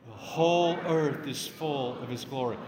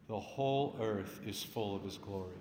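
First: It is shouted out as loudly as possible. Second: It is spoken at a normal, moderate volume. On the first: "Can we shout it out as loud as we can?" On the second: "Just repeat it after me"

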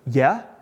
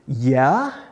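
First: It is said in a plain, neutral tone. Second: It is said in an annoyed kid's tone.

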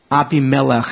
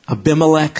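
First: The name is said with Hebrew pronunciation. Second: The name is said in an anglicized way. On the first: "Abimelech is how it would be in Hebrew" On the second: "Abimelech, some people say"

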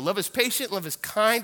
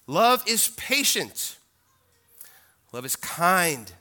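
First: It is said at a quicker pace. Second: It is said at a slower pace.

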